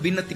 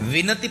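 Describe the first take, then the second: First: The word begins with a B sound. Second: The word begins with a V sound. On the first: "વ અને બ બંને વસ્તુ બોલી શકો" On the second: "વ અને બ બંને વસ્તુ બોલી શકો"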